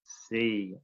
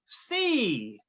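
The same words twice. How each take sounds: First: Lower, softer echo of C; students repeating. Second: Higher puppet voice giving the word C; Woody drilling. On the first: Retold or imitated. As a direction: echo C back like a class. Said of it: "And the students would repeat". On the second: Pretend. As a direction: model C as the puppet teacher. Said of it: "Woody's gonna take over the teacher role".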